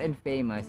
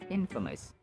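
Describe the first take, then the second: First: It sounds like 'in' plus 'famous'. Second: It does not sound like 'in' plus 'famous'. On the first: The speaker calls it wrong. "It's not infamous" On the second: The speaker calls it right. "but it's pronounced as infamous"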